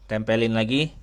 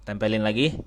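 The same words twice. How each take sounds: Both takes have the same delivery.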